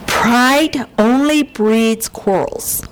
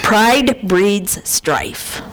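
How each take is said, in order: First: Slow, with stress on only; scripture read out slowly, only stressed; slow scripture quote. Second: Very slow, each word weighed; King James wording, slow with a laugh; slow punchline verse. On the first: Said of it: "Proverbs thirteen ten". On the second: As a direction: drawl out pride breeds strife. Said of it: "in the King James is strife". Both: Shown as a demonstration.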